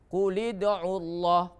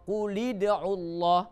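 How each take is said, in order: No difference in how they are said.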